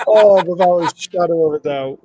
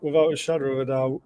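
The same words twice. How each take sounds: First: Louder, emphatic; emphatic agreement. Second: Said in the usual way. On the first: Real, not acted. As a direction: stress it, punch out the agreement.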